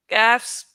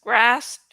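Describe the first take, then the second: First: "Gasped" said as misread, no r; gasped, the misreading, plain and low. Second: "grasped" with a clear r after the g; grasped, the corrected word, plain and low. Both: Shown as a demonstration. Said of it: "What's the difference?".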